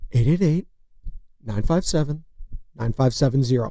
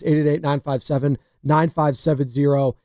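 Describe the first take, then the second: First: The number is read slowly and deliberately. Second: The number is read at a normal pace.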